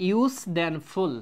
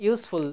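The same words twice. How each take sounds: First: ইউজ and ফুল said slowly as separate parts, joined by "then"; ইউজ then ফুল, each part drawn out for learners; broken into syllables. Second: Said in the usual way. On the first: Shown as a demonstration. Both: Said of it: "আমি ভাঙ্গি".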